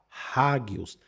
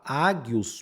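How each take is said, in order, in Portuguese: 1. A palavra começa com som de H. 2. A palavra começa direto com uma vogal. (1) "mas você vai falar rágios" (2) "você não vai falar ágios"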